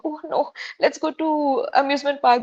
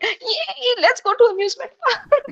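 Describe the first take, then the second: First: It sounds reluctant and unwilling. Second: It sounds cheerful and excited.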